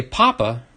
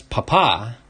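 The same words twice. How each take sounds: First: Papa said with the stress on the first syllable, PA-pa; Spanish papa, potato. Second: Papa said with the stress on the second A, pa-PA; Spanish papá. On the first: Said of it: "if you just say Papa". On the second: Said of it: "with the accent on the second A". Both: Shown as a demonstration.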